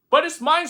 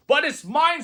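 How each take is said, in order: First: High, loud screech; second try at Maisie's scream. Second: High, loud screech; screamed. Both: A narrator's reading. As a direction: shriek it possessively. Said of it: "screamed the bird".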